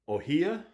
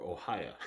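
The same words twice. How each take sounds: First: Ohia with an "ee" in the middle, rising high; first pronunciation guess. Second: Ohio with an "eye" in the middle, at usual pitch; alternative pronunciation guess. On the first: Woodturner unsure of a Hawaiian wood name, tentatively pronouncing Ohia as oh-HEE-ah. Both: Shown as a demonstration. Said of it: "not sure how to pronounce this".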